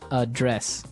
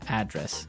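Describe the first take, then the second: First: The stress is on the second syllable. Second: The stress is on the first syllable. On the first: It means to deal with a problem. "the verb address has the str- the stress on the second syllable" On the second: It means the place where someone lives. "And there the stress is on the first syllable"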